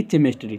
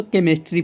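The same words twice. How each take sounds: First: केमिस्ट्री with a ch sound, chem-es-tree; केमिस्ट्री misread with ch; wrong pronunciation. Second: केमिस्ट्री with a k sound, kem-is-tree; केमिस्ट्री said the right way; correct pronunciation. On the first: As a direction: say केमिस्ट्री starting with ch, the mistake. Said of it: "ना कि केमिस्ट्री". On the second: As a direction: say केमिस्ट्री starting with k. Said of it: "केमिस्ट्री पढ़ते हैं". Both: Shown as a demonstration.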